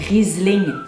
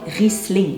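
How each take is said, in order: First: The middle consonant is a buzzing z sound. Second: The middle consonant is a hissing s sound. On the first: The speaker calls it wrong. "il n'y a pas de Z dans ce mot" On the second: The speaker calls it right. "on le prononce donc Riesling"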